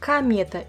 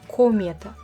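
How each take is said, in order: First: The first vowel sounds like 'a'. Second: The first vowel sounds like 'o'. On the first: The speaker calls it right. "moi je prononce bien комета" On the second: The speaker calls it wrong. "et pas комета"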